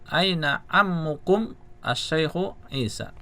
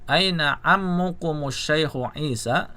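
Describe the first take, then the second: First: The words are said separately with breaks. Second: The words are linked together without a break. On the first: "Kalau dipisah" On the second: "kalau mau dibaca sambung"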